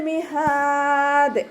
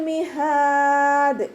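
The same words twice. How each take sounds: Both takes have the same delivery.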